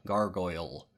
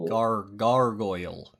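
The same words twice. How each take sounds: First: "Gargoyle" said whole and settled; confident correct "Gargoyle". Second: "Gar-, gargoyle" broken up, then slow and louder; syllable by syllable. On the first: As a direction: land "Gargoyle" plainly, once. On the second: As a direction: sound out "gargoyle" carefully. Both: Shown as a demonstration. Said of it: "It's pronounced gargoyle".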